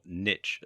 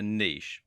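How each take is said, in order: First: Niche said as "nitch", rhyming with rich; alternative pronunciation. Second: Said in the usual way. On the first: Shown as a demonstration. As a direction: say niche with a short i and a tch ending. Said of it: "as some people pronounce it". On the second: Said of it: "or niche as some people pronounce it".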